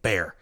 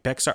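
First: It is said like the word bear. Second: It is said as spelled, with an x sound. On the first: The speaker calls it right. "oh, dang it, Bear" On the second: The speaker calls it wrong. "it looks like Bexar"

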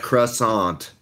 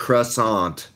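First: The word is pronounced the English way. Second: The same.

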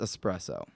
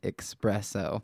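First: The word begins with an 'es' sound. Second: The word begins with an 'ex' sound. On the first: The speaker calls it right. "It's pronounced espresso. ... No X" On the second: The speaker calls it wrong. "That's not how you say it"

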